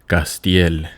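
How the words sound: The name is said with a Spanish pronunciation. This is how Spanish-speaking family would say it. "if you're my Spanish side of the family"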